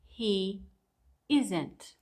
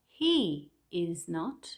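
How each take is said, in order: First: The last two words are merged together. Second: Each word is said separately, in full.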